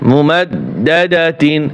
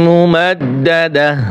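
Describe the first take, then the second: First: The word ends with a full -tin ending. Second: The word ends with an h sound. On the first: The reading continues without a stop. "তা দুই জের তিন মুমাদ্দাদাতিন" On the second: The reader stops on this word. "অক্ষ করলে হা উচ্চারণ হবে"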